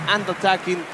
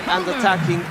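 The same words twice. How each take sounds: The two takes are said the same way.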